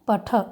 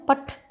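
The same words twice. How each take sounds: First: The word ends with a short 'a' vowel. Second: The word ends on a bare consonant. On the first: The speaker calls it right. "अकारांत ही बोलना है, पठ ऐसे बोलेंगे" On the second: The speaker calls it wrong. "पठ ऐसे नहीं बोलना है"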